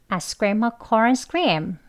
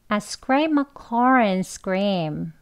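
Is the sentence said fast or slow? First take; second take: fast; slow. First: The sentence is said faster. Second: The sentence is said slowly. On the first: "조금 빨리 해볼까요?" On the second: "천천히 한번 먼저 해볼게요"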